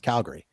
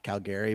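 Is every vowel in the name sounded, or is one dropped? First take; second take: one dropped; all sounded. First: One vowel in the name is dropped. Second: Every vowel in the name is fully sounded. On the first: A local is saying it. The speaker calls it right. "we pronounce it as Calgary" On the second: An outsider is saying it. The speaker calls it wrong. "not Calgary"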